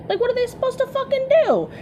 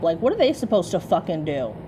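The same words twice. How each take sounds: First: Much higher, incredulous repeat; exasperated high squeal. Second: Said in the usual way. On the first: Shown as a demonstration. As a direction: shoot the pitch way up in disbelief. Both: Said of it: "repeated line".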